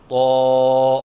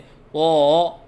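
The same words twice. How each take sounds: First: The sound is clean and steady. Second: The sound wavers up and down. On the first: The speaker calls it right. "सही अदायगी है" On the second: The speaker calls it wrong. "लहराव के साथ पढ़ना"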